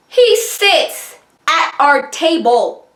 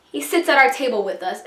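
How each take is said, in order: First: "He sits at our table" spaced out slowly, pitched high; slow emphatic disbelief. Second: Said in the usual way. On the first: Real, not acted. Storyteller stunned he joined their table, slow emphatic disbelief. First, stunned telling of the intrusion.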